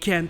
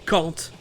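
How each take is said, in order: First: It is said in an American accent. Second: It is said in a British accent. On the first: "c'est la prononciation en anglais américain" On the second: "c'est la prononciation en anglais britannique"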